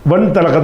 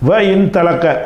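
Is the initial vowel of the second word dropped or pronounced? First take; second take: dropped; pronounced. First: The vowel starting the verb is dropped, words joined. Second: The vowel starting the verb is pronounced separately. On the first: The speaker calls it right. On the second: The speaker calls it wrong.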